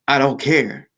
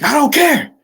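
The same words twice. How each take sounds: First: It is said in a calm, plain voice. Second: It is yelled in a hostile, aggressive voice. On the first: The speaker simply doesn't mind. "You could just say" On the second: The speaker is angry and picking a fight.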